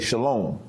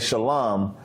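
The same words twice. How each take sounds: First: It is said in modern Hebrew pronunciation. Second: It is said in the community's own Hebrew pronunciation. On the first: This is how modern Hebrew speakers say it. "he would say" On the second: This is how the speaker's group says it. "instead of saying"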